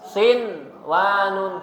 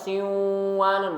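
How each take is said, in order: First: The n sound is pronounced clearly before the next sound. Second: The n sound is merged into the following sound. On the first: The speaker calls it right. "tapi dibacanya sin wanun" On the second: The speaker calls it wrong. "Jadi bukan dibaca siwanun"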